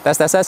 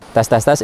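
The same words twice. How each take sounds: First: The voice sounds crisper and brighter. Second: The voice sounds bassier and rounder. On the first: "yang Q dua puluh lebih renyah suaranya" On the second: "Yang B dua lebih ngebas dan bulat"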